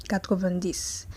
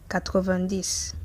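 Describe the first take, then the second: The two takes are said the same way.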